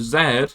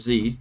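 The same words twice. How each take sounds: First: The letter is said the British way, zed. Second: The letter is said the American way, zee.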